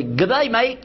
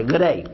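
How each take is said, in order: First: Mock Australian "Good day, mate", pitched higher; cheery hammed-up Aussie greeting; Australian accent. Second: Said in the usual way. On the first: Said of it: "Anyway, they say". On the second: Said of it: "It's just G D A Y".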